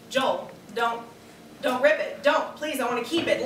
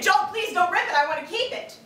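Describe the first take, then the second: First: Half-hearted first plea to her husband; timid pleading. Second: Much higher, louder, frantic begging; wife begging husband in earnest, higher and louder; desperate pleading. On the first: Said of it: "let me hear you say it like you mean it". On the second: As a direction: plead as if the dress truly matters. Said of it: "Like you mean it". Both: Acted.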